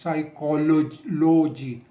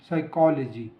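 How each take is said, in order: First: The 'lo' vowel is said as a full vowel. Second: The 'lo' vowel is reduced to a weak schwa. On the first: The speaker calls it wrong. "ना कि" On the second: The speaker calls it right. "नो"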